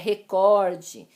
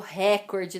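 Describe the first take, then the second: First: The stress is on the second syllable. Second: The stress is on the first syllable. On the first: The speaker calls it right. "É recorde" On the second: The speaker calls it wrong. "não é o ré, que é a sílaba mais forte"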